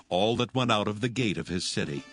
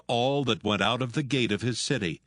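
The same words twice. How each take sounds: The two takes are said the same way.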